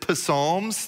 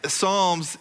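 First: The word begins with a sounded P. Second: The word begins with an S sound. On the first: The speaker calls it wrong. "some people pronounce it Psalms" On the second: The speaker calls it right. "but the P is silent"

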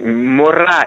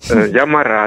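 First: The first vowel is a clear 'o'. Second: The first vowel is reduced to 'a'. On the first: It means teacher. The speaker calls it right. "Мора – это учительница" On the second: It becomes a different word. The speaker calls it wrong. "сказала ... «Здравствуйте, я Мара»"

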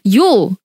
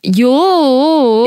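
First: It is said sharply and emphatically. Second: It is drawn out in a whining, pleading tone. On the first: The speaker is exclaiming. "Is an exclamation" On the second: The speaker is begging or complaining. "a pleading. Whining"

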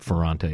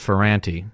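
First: The name is said in its original way. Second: The name is said in an Americanized way. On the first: It is the authentic form of the name. "It's really Ferrante is the pronunciation" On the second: It is an adapted form from an earlier era. "my father says Ferrante. It's an Americanized pronunciation"

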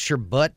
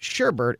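First: The second syllable has no R sound. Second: The second syllable has an R sound. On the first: This is the usual pronunciation. "it's pronounced sherbut. It's B-U-T in the pronunciation" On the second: This is a less common pronunciation. "with an additional R in the second syllable is pronounced sherbet"

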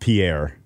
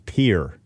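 First: It is said the French way, ending in 'air'. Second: It is said like the one-syllable word 'pier'. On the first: The speaker calls it wrong. "It's not Pierre" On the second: The speaker calls it right. "It's Pier"

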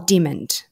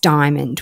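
First: The first syllable sounds like 'dim'. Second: The first syllable sounds like 'die'. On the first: The speaker calls it wrong. "And they'll go, oh, dimmond. And I'm like, no" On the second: The speaker calls it right. "it's diamond without the A"

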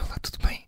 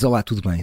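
First: It is said with flat, low energy. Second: It is said with lively, high energy.

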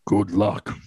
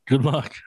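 First: It is said in a creepy voice like Taken's villain. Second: It is said in a plain, normal voice.

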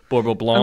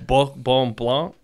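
First: The R is a plain English sound. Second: The R is a guttural French sound. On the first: "if you went into and you said that like that, people would think you're crazy" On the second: "the R is that guttural sort. So it's Bourbon Blanc is how I think you would say it"

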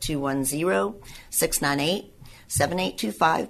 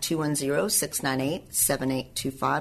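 First: The number is said more slowly. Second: The number is said at normal, faster speed.

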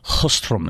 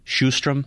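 First: The name is said with a Swedish pronunciation. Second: The name is said with an English pronunciation. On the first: The speaker calls it right. "It's Sjöström" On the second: The speaker calls it wrong. "even when we think we have the pronunciations right, they're so far off"

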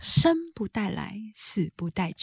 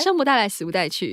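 First: It is said at a slower pace. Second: It is said at a faster pace.

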